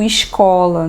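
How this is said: It is said in a Rio de Janeiro accent. This is how people in Rio say it. "por causa do sotaque deles, né, nós escutamos muito escola"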